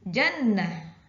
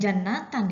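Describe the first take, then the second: First: The word ends with a short 'ah' sound. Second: The word ends with the full 'atan' sound. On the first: The speaker calls it right. "tapi jannah" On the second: The speaker calls it wrong. "Itu dibacanya bukan jannatan"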